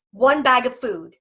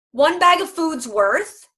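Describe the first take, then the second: First: ONE stressed, falling: "one bag of food"; company motto. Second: "bag" stressed, slow, higher, rising; drawn-out motto. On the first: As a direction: lean on "one", let it fall. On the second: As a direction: stretch "One bag of food's worth" and lift "bag". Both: Shown as a demonstration. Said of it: "We say at Volhard".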